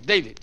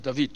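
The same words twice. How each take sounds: First: The name is said the English way. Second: The name is said the Hebrew way. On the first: "Just as you say" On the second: "my name is David"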